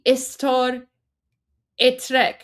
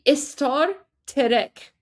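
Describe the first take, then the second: First: An extra vowel comes before the t of trek. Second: An extra vowel comes between the t and r. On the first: The speaker calls it wrong. "It wouldn't actually be istar etrek" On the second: The speaker calls it right. "so it would be istar terek"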